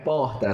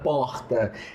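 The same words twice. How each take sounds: First: The R is dropped with no sound. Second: The R is strongly and audibly pronounced. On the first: This is how people in the other region say it. "não tem nenhum som do R" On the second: This is how people from the speaker's home region say it. "Lá não é porta"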